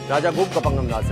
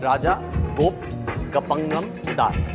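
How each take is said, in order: First: The phrase is said quickly in rapid repetition. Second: The phrase is said once at an ordinary pace.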